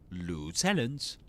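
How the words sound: It is said with an American English pronunciation. "American English"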